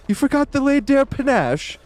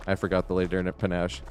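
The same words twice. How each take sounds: First: Shrill disbelief, pitched far higher; mock Gustave shrieking at his bellboy; outraged high mock shriek. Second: Mumbled, much softer and lower; sheepish quiet admission. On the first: Gustave exploding at the bellboy, high outraged shriek. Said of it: "ranting at him". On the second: Retold or imitated. The bellboy admitting the mistake, mumbled softly. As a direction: own up meekly under the breath. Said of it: "And he's like".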